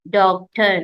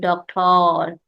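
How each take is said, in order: First: The ending is said with an 'er' sound. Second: The ending is said with an 'or' sound. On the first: The speaker calls it right. "here it is making R sound" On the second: The speaker calls it wrong. "not doctor"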